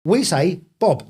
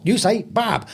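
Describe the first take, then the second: First: Slow, careful "Bob" with a rounded British "o"; Cockney "Bob". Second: "Bob" with an open American "ah", higher. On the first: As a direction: teach the London vowel in "Bob". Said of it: "You say Bob". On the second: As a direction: mimic his vowel, "Bahb" for "Bob". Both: Shown as a demonstration.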